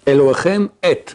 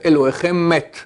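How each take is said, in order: First: The two words stay separate with no linking. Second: The final M links into the next word. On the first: Your God is meant. The speaker calls it right. "Tu dis et et pas met" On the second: Your God is dead. The speaker calls it wrong. "si tu as les liaisons, tu fais"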